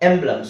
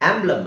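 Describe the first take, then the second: First: The first vowel is a front 'eh' sound. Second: The first vowel is an open 'ah' sound. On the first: The speaker calls it right. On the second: The speaker calls it wrong. "ಆಂಬ್ಲಮ್ ಅಲ್ಲ"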